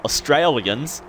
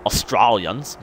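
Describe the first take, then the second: First: Said in the usual way. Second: AUSTRALIANS in a hammed-up Australian accent, first syllable "os"; broad Australian accent. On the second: Shown as a demonstration. Vlogger overdoing own origins, mock broad Australian accent on "Australians". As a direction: put on a botched broad Aussie "Australians". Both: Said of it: "buffen up my Australian accent".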